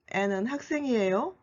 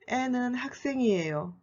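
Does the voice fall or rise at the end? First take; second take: rise; fall. First: The voice rises at the end. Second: The voice falls at the end. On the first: It asks whether she is a student. "As a question" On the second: It states that she is a student. "As a statement"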